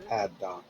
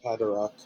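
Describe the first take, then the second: First: No R sound is heard mid-word. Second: An extra R sound is added mid-word. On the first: The speaker calls it right. "just Paddock. No R" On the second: The speaker calls it wrong. "Not Padarock"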